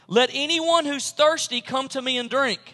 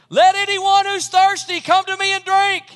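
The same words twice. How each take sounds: First: The sentence is spoken at normal volume. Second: The sentence is spoken very loudly.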